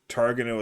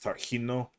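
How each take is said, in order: First: The name is pronounced a non-Spanish way. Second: The name is pronounced the Spanish way. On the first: The speaker calls it wrong. "Targano is probably incorrect, but it's what I've been saying" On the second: The speaker calls it right. "That would be the Spanish pronunciation"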